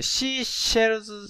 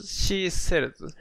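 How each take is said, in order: First: "シーシェルズ" with SH starting both words. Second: "シーセルズ" with SH first, plain S second; SH then S. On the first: Student checking which sound with teacher, SH twice in "シーシェルズ". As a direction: say "シーシェルズ", hushing SH on both halves. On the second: Student checking which sound with teacher, SH then S in "シーセルズ". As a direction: switch from hushed SH to hissed S in "シーセルズ". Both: Shown as a demonstration. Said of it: "どっち".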